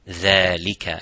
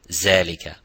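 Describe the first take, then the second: First: It starts with a light, thin dh sound. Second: It starts with a z sound. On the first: The speaker calls it right. "empty mouth" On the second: The speaker calls it wrong.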